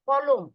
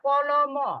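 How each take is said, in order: First: The word stops sharply on the final consonant. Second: The word ends with an added final vowel. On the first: The speaker calls it right. "থেমে যায়" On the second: The speaker calls it wrong. "বলি না কলম"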